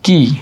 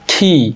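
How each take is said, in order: First: The k sound has no puff of air. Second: The k sound has a puff of air. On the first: The speaker calls it wrong. "কি বলা যাবে আজকে থেকে? No" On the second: The speaker calls it right. "it will be key"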